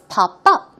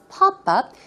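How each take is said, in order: First: The stress falls on the second word. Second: The stress falls on the first word. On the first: It is the verb meaning to appear suddenly. "Stress goes on up" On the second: It is the noun for a window on a screen. "in the noun form, it's pop-up"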